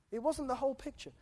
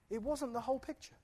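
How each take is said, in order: Both takes have the same delivery.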